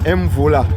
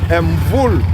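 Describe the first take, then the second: First: The name ends with an audible final vowel. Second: The name ends on a consonant, no final vowel.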